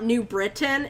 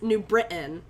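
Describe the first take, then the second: First: The T in the middle is clearly pronounced. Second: The T in the middle is dropped. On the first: "it's not New Britain" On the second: "I drop a lot of my T's"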